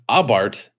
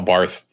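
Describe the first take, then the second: First: The word ends with a plain t sound. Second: The word ends with a th sound. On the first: This is the European way of saying it. "if you're European, it's Abarth. The H does not exist" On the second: This is the American way of saying it. "in the U S they just kind of were like uh, Abarth, whatever"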